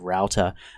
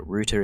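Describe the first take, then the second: First: It is said in an American accent. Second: It is said in an Australian-British accent.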